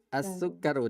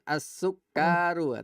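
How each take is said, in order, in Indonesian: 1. Vokal setelah K itu pendek. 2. Vokal setelah K itu panjang. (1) "Kafnya panjang apa pendek? ... Pendek"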